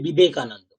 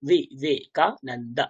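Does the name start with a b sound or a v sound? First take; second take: b sound; v sound. First: The name starts with a b sound. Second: The name starts with a v sound. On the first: This is the Bengali pronunciation. "আমরা বাংলায় বলি বিবেকানন্দ" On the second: This is the Sanskrit pronunciation. "সংস্কৃত উচ্চারণ উচ্চারণ যখন করব তখন হবে বিবেকা, not ব"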